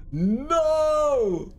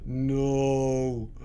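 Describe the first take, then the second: First: High, wailed NO; high protesting no. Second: Low, drawn-out NO; low dismayed no. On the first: Player refusing defeat, high wailed NO. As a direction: swoop NO up high, then let it fall. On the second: Player facing defeat, low drawn-out NO. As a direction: let NO sink low and long. Refusing to accept the loss. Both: Real, not acted.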